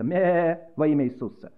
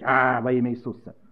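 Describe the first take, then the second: First: It is said in a thin bleating voice. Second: It is said in a loud roaring voice. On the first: "давайте будем блеять во имя Иисуса" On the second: "хотят реветь"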